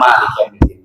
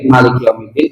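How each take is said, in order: First: The first vowel of Malik is long. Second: The first vowel of Malik is short. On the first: "kita baca panjang" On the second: "kita baca pendek"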